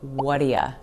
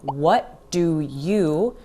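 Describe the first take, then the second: First: The last word is reduced to 'ya'. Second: The last word is a full 'you'.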